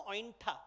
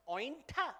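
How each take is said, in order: First: Said in the usual way. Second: Appalled one-word question; disgusted disbelief on the word; horrified recoil. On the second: Acted. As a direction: say it recoiling in horror. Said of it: "recoils in horror and says".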